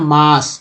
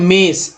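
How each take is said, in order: First: The vowel is said like long 'aa'. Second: The vowel is said like 'e' in 'met'. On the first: The speaker calls it right. "यहाँ पर आ हो रहा है" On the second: The speaker calls it wrong. "जो कि गलत हो जाता है"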